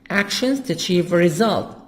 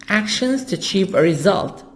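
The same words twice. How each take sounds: Both takes have the same delivery.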